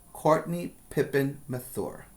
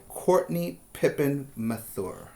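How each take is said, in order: Both takes have the same delivery.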